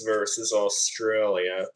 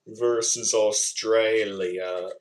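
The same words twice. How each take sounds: First: Said in the usual way. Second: Slow, drawn-out Australian "Australia"; Australian accent. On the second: Shown as a demonstration. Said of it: "how they say it in the Australian accent".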